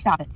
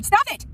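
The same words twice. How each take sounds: First: Said in the usual way. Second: High, loud burst of anger; raw angry yell. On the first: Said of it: "They're just like". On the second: Real, not acted. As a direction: yell it to shut them up. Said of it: "These are my raw emotions".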